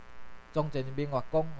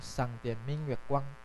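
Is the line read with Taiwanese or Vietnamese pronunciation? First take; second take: Taiwanese; Vietnamese. First: The line is read with Taiwanese character pronunciations. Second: The line is read with Vietnamese character pronunciations.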